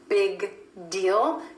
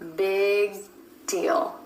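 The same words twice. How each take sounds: First: The G is released before the D. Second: The G is held, going straight into D. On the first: The speaker calls it wrong. "Instead of releasing that G" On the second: The speaker calls it right. "you're holding the G with the back of the tongue up to the soft palate"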